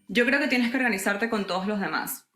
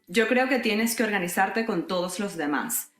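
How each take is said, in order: First: It is spoken at a fast, natural pace. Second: It is spoken at a slow, careful pace. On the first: "here's my natural speaking speed" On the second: "this is how, per your request, I tend to speak in our videos"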